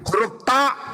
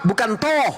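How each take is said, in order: First: The vowel is an open 'a' sound. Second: The vowel is a rounded 'o' sound. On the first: The speaker calls it right. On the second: The speaker calls it wrong.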